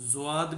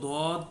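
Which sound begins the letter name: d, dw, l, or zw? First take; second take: zw; d. First: It begins with a z sound followed by w. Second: It begins with a plain heavy d sound. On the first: This is how it is pronounced in the subcontinent. "India और ये जितना भी हमारा ये बर सग़ीर है इनमें इसको ज़्वाद" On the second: This is how Arabs pronounce it. "जो अरबी लोग हैं वो इसको दौद पढ़ते हैं"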